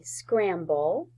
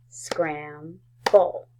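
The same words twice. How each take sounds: First: Said in the usual way. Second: "Scramble" as scram, pause, ble; split into syllables. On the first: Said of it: "Say scramble". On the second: Shown as a demonstration. Teacher clapping with first graders, "Scramble" split as scram... ble. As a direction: clap out "Scramble" in two even beats. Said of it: "let's clap out the syllables".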